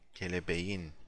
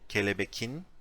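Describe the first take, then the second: First: A soft gliding sound comes before the ending. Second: A hard k sound comes before the ending. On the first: The speaker calls it right. "we say kelebeğin" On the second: The speaker calls it wrong. "we don't say kelebekin"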